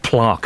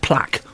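First: The word has a different, alternative pronunciation. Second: The word has its usual pronunciation.

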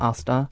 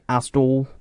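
First: It ends in a plain vowel, no l. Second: It ends with an added l sound. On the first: "rather than Asda" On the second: "Bristolians say Asdol"

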